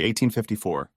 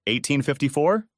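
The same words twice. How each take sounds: First: Said in the usual way. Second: Shocked question rising on fifty-four. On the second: A narrator's reading. Carol echoing the year back to Justice, shocked question. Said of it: "she asked, shocked".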